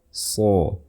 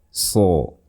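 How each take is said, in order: The two takes are said the same way.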